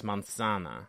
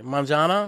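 First: Manzana with a soft s instead of z, low and falling; Spanish pronunciation. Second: Manzana with a buzzing English z, rising like a question; unsure Manzana with a hard z sound; halting phrasebook tourist. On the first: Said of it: "It's almost a little more S-y". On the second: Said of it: "maybe I'm not pronouncing it correctly". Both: Shown as a demonstration.

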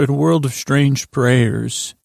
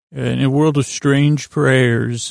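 First: Slow, dramatic trailer narrator; movie trailer voice. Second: Slow, drawn-out trailer narration; movie trailer voice. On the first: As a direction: announce it like an epic film trailer. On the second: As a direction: stretch it out like an epic film trailer. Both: Acted. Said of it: "That was called the movie trailer".

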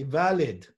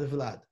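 First: "Valid" in two syllables, vowel between V and L; two-syllable pronunciation. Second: "Vlad" as one syllable, V running straight into L; one-syllable pronunciation. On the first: Teacher passing on his master's form, "Valid" in two syllables. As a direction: say "Valid", opening the first syllable as VA. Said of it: "he used to say Valid". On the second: Teacher giving the common form for contrast, "Vlad" as one syllable. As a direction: say "Vlad" with no vowel after the V. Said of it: "not Vlad". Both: Shown as a demonstration.

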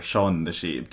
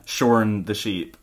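First: "Shaun" with an open vowel, no R. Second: "shorn" with a Scottish sounded R; R pronounced. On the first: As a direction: say "Shaun" plainly without any R. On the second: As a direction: say "shorn" slowly, R clearly heard. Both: Shown as a demonstration. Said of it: "Just doesn't work".

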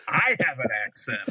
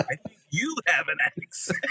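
First: "I" picked out as the questionable word; stress on I. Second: "you" picked out against the rest; stress on YOU. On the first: Driver answering Jersey attendant, stress on "I". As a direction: lean on "I" in disbelief. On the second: Driver retorting to Jersey attendant, stress on "you". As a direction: lean on "you" to turn it back. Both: Retold or imitated. Turning the accent remark back.

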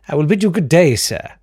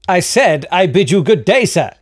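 First: Haughty farewell. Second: Higher, louder, pompous repeat; insistent haughty farewell. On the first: Narrator dismissing barkeep. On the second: Traveller dismissing the barkeep again, higher louder pompous insistence. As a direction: insist on leaving, pompously, rising to the end. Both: Acted.

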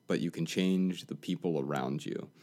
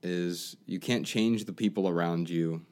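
First: "change" hit hard, "can" unstressed; stress on change. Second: "can't" hit hard, "change" lighter; stress on can't. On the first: Answer line with weight on "change". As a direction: lean on "change" in "you can change". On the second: Advice line with weight on "can't". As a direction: lean on "can't" in "you can't change". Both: Shown as a demonstration. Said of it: "the best advice I ever got".

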